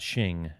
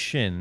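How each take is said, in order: First: The name ends with an ng sound. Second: The name ends with an n sound. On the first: The speaker calls it wrong. "not Shing" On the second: The speaker calls it right. "his name is Shin"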